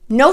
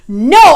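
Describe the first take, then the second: First: It sounds firm and calmly confident. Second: It sounds angry and aggressive.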